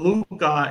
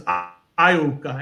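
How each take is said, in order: First: The name starts with an L sound. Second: The name starts with an 'eye' sound. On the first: The speaker calls it wrong. "I call it Luca" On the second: The speaker calls it right. "and it's Iuka"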